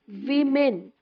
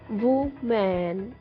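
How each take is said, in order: First: It sounds like the plural word women. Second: It sounds like the singular word woman. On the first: The speaker calls it right. "The correct pronunciation of the word spell W O M E N is women" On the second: The speaker calls it wrong. "but that is not correct pronunciation"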